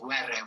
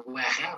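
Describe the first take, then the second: First: Were with a Spanish R; correct pronunciation. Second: Were with the R not said the Spanish way; wrong pronunciation. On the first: Teacher correcting learners to Spanish R in Were, correct pronunciation. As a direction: model Were with the tongue-tip Spanish R. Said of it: "c'est un R espagnol". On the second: Teacher warning learners off the non-Spanish R in Were, wrong pronunciation. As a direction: show the mistaken R in Were. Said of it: "vous allez pas dire". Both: Shown as a demonstration.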